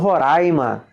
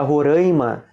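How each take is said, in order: First: The vowels in the word sound less nasal. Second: The vowels in the word sound more nasal. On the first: "eu falo Roraima" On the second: "mais nasalizado"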